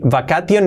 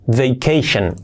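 First: The ending is said as separate syllables, not 'shun'. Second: The ending is said as a short 'shun' sound. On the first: The speaker calls it wrong. "que no es vacation" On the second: The speaker calls it right. "Así sería vacation"

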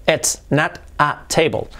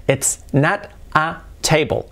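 The two takes are said the same way.

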